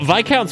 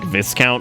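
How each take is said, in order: First: It is said the usual way, unlike discount. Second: It is said to rhyme with discount. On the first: The speaker calls it right. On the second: The speaker calls it wrong.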